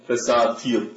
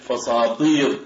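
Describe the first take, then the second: First: "فساتيط" with a plain, unemphatic ت; light ت. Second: "فساطيط" with a heavy, dark ط; emphatic ط. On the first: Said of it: "ولا يقولون فساتيط". (نطق "فساتيط" بتاء مرققة) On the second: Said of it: "بالطاء ولا يقولون فساتيط". (نطق "فساطيط" بطاء مفخمة) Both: Shown as a demonstration.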